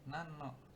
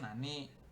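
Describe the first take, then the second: First: The final i is dropped before no. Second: The word ends with a full final i. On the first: "dibaca nan aja gitu. ... Jadi i-nya hilang" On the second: "Sebenarnya nani"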